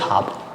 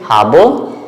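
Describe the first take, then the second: First: The word ends without the final vowel. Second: The word ends with an audible final vowel. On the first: The speaker calls it right. "just habe" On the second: The speaker calls it wrong. "Don't say habe"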